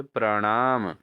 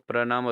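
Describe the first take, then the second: First: प्रणाम with retroflex n; correct pronunciation. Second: प्रणाम quickly, with plain n; wrong pronunciation. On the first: Teacher answers for students, प्रणाम with retroflex n. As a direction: flap the n in प्रणाम. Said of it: "क्या होना चाहिए?". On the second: Teacher shows students the error, प्रणाम with plain n. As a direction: say प्रणाम as "pra-naam", dental n. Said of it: "अशुद्ध है". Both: Shown as a demonstration.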